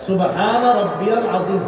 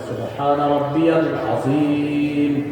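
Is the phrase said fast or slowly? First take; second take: fast; slowly. First: The phrase is said quickly and rushed. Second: The phrase is said slowly and carefully. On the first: The worshipper is rushing through the prayer. The speaker calls it wrong. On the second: The worshipper is clearly at ease in prayer. The speaker calls it right.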